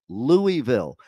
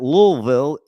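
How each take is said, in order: First: The first part is said fully as "Louie." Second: The first part is squeezed into "Lul." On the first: The speaker calls it right. "It's Louisville. ... It was King Louis" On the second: The speaker calls it wrong. "don't even know how to pronounce Louisville right"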